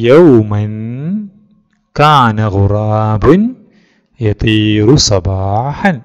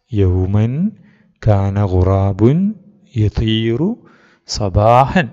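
First: Loud, very slow, word by word; teacher reading aloud. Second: Slow read-aloud at normal volume; teacher reading again. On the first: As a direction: read each word out slowly for the class to follow. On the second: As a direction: read it over again, calmer and slower than talk. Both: Shown as a demonstration. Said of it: "sir വായിക്കാം".

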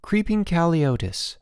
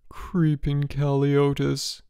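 First: Higher-pitched article readout; reading aloud. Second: Slow, high feeble moan. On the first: Boots reading fake article to George, reading aloud. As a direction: announce it like a headline. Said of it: "He began to read". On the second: George in bed believing he is dying, moaning. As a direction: moan it out slowly, drawn and sickly. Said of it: "George moaned". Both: A narrator's reading.

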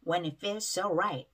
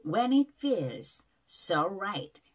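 First: "feels so" joined with a single S; merged S sounds. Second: Slow "When it feels so right", pausing between "feels" and "so"; separate S sounds. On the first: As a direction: run "feels" into "so", saying only one S. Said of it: "한 번으로 발음 나죠?". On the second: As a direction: give "feels" and "so" each their own S. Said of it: "에스에스가 붙으면". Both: Shown as a demonstration.

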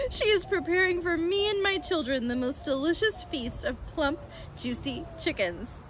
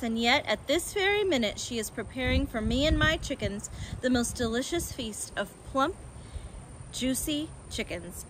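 First: Higher, tickled reading voice; amused retake. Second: Said in the usual way. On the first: A narrator's reading. Narrator rereading Fox's line after a slip, amused. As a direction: read on through leftover amusement.

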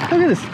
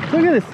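Both takes have the same delivery.

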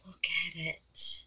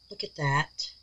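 First: Awed whisper. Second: Soft, hushed, admiring. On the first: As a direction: breathe it out in wonder. Admiring the piece in a whisper. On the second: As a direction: say it softly in awe. Admiring the piece, then whispering. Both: Real, not acted.

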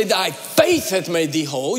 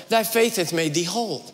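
First: All the emphasis on "faith"; stress on FAITH. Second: Said in the usual way. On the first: Shown as a demonstration. Preacher showing a misreading, "faith" hit hard. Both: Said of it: "emphasis all on faith".

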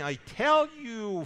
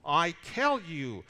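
First: "I tell you" higher, louder and slow, the word "tell" struck hard; raised, slow "I tell you" aimed straight at the Pharisees; emphatic call-out. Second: "I tell you" slow and firm, "tell" stressed but less raised; measured, deliberate "I tell you"; quieter emphatic repeat. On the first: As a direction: call them out with "tell" hit hardest. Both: Retold or imitated. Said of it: "and he points right at them".

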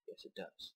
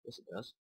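First: Whispered under the breath, much softer. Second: Said in the usual way. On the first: Acted. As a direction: whisper it to yourself, stubbornly. Arguing with himself over puzzle.

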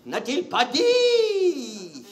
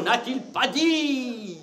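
First: Very slow, higher, near-crying wail of N'a-t-il pas dit; milk each word like a tragic actor; slow wailing recital. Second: Slow declaiming. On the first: Comedian hams up the tragic line, wailing slowly. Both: Shown as a demonstration. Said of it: "qu'est-ce qu'il n'a pas dit".

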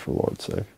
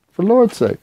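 First: "for Lord's sake" breathed out, unvoiced and soft; whispered aside. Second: "For Lord's sake" jumps much higher, stress on "Lord's", falling; exasperated exclaim. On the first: Mutters, then repeats it aloud. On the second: Repeats the whispered oath aloud. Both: Real, not acted.

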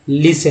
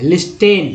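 First: लिसन said with a silent t, like "lisn"; लिसन pronounced lis-un, t dropped; correct pronunciation. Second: लिस्टेन with the t sounded, "lis-ten"; लिस्टेन, wrongly voicing the silent t; common mispronunciation. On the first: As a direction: say लिसन with no t sound at all. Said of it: "लेकिन बहुत सारे लोग ऐसे लिस्टन पढ़ते हैं". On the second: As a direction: mimic the learners who say लिस्टेन with a clear t. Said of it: "बहुत सारे लोग ऐसे लिस्टन पढ़ते हैं". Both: Shown as a demonstration.

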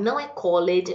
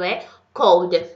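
First: "called" with an extra syllable, "call-ed"; wrong pronunciation. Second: "called" as one syllable, "cold"; right pronunciation. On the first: Teacher showing students the common mistake, "call-ed". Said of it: "uma pronúncia muito errada". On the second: Teacher giving students the correct one-syllable "called". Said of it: "Isso é a pronúncia". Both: Shown as a demonstration.

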